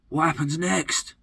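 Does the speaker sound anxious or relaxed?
anxious. The voice sounds anxious and worried. The future is something to fear. "Do you live in a state of potential fear"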